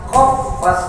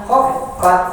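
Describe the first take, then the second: Both takes have the same delivery.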